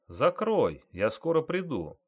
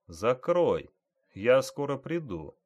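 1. Фраза произносится в медленном темпе. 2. Фраза произносится в очень медленном темпе. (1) "Теперь медленней" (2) "Еще медленней"

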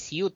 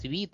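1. Слово произносится как 'syoot'. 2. Слово произносится как 'sweet'. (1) "сори, не сьют" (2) "а свит"

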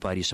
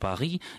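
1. Название произносится с русским произношением. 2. Название произносится с французским произношением. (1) "ни Париж" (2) "как это называется в языке источники"

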